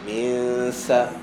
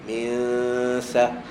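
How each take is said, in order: Both takes have the same delivery.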